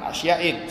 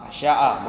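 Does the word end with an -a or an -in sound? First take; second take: -in; -a. First: The word ends in an -in sound. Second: The word ends in a plain -a vowel. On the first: The speaker calls it wrong. "bukan asya'in, salah" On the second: The speaker calls it right. "Yang betul asya'a"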